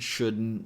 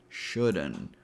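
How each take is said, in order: First: It is said with a glottal stop instead. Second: It is said with an added schwa vowel. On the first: "we're going to use a glottal T sound" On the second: "the longer version ... where we add a schwa sound"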